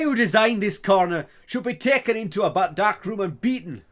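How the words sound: It is said in an imitated non-English accent. "I have to do the accent now"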